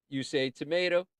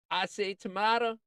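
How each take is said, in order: First: "tomato" said tuh-MAY-toh, lilting. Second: "tomato" said tuh-MAH-toh, higher and lilting. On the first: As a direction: say "tomato" with a long AY in the middle. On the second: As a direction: say "tomato" with a broad AH in the middle. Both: Shown as a demonstration.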